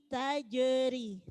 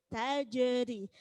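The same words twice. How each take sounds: The two takes are said the same way.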